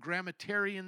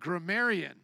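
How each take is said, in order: First: An extra t sound is added mid-word. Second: No t sound is added mid-word. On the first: The speaker calls it wrong. "So I added a T" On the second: The speaker calls it right. "There we go"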